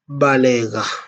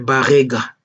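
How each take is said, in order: First: The middle consonant is an L sound. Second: The middle consonant is an R sound. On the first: The people themselves say the name this way. The speaker calls it right. "nous sommes des Balega" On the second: Outsiders say the name this way. The speaker calls it wrong. "avec votre sale prononciation de vos bouches qui pue, vous appelez des Barega"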